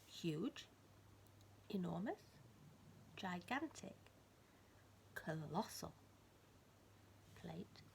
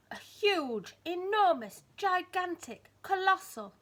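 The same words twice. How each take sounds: First: Softer, each word rising gently; soft wondering list. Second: Loud, high, each word falling heavily; big booming words. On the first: Storyteller to child, softly wondering at the plate. Same words repeated softly. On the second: Storyteller to child, booming each size word. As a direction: boom out every big word. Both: A narrator's reading.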